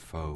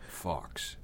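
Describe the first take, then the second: First: The name sounds like 'foe' with no final sound. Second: The name sounds like 'fox' with a final 'ks'. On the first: The speaker calls it wrong. "Don't say Faux" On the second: The speaker calls it right. "He says it's the English pronunciation"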